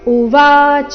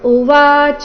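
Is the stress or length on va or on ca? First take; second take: va; ca. First: The weight falls on the long middle syllable va. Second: The weight falls on the final syllable ca. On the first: The speaker calls it right. "ಉವಾಚ ಶಬ್ದದಲ್ಲಿ ವಾದೀರ್ಘ. So ಸರಿಯಾದ ಕ್ರಮ" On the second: The speaker calls it wrong. "ಈ ರೀತಿ ಚ ಮೇಲೆ ಲಯ ತಗೊಳ್ಬಾರ್ದು"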